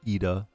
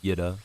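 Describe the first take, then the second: First: The name begins directly with a vowel. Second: The name begins with a 'y' sound. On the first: "Ida, as opposed to Yida" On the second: "as opposed to"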